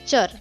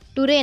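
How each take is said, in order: First: The ending starts with a 'ch' sound. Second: The ending starts with a 't' sound. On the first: The speaker calls it right. "तर चर" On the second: The speaker calls it wrong. "टुरे नाही"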